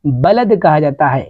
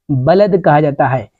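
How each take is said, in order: Both takes have the same delivery.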